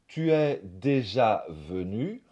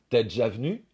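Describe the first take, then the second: First: All vowels are pronounced in full. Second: Vowels in tu and déjà are dropped. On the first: The speaker calls it wrong. "au lieu de dire" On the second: The speaker calls it right. "on va dire"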